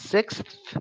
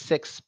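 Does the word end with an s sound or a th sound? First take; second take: th sound; s sound. First: The word ends with a th sound. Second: The word ends with a plain s sound. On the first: It is the proper standard way of saying it. The speaker calls it right. "properly, it's sixth, and then that tongue comes out" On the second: It is a casual slang way of saying it. The speaker calls it wrong. "in slang with a slangish pronunciation of six. They may pronounce it with just an S sound"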